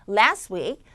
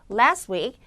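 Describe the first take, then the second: The two takes are said the same way.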